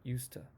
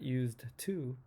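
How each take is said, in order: First: The D sound in used is dropped. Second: The D sound in used is pronounced. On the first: The speaker calls it right. "but used to" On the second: The speaker calls it wrong. "not used to"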